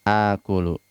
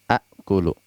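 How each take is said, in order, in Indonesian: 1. Vokal panjang terdengar tanpa hamzah. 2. Vokal pendek diikuti oleh hamzah. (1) "memanjangkannya. Jadilah akulu" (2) "ini asalnya ... sulit untuk diucapkan"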